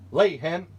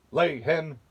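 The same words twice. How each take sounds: First: Put-on higher, louder boy's command; Jack commanding. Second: Booming command to the hen; roaring giant. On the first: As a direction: call it out brightly as Jack. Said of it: "said Jack". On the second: Acted. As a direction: bark it like a giant. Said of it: "the giant roared".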